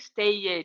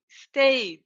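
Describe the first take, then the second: First: The ending is an extra syllable with a vowel. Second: The ending is a plain D sound, one syllable. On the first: The speaker calls it wrong. "I don't say" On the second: The speaker calls it right. "imagine the E doesn't exist"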